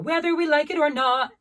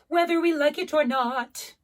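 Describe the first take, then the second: First: The final T of 'not' is left off. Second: The final T of 'not' is clearly sounded. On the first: The speaker calls it wrong. "is not going to do it" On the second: The speaker calls it right. "I need the T sound"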